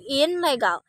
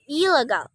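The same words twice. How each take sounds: First: The prefix ends with an N sound. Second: The prefix ends with an L sound. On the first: The speaker calls it wrong. "We don't say illegal" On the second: The speaker calls it right. "The N changes into E"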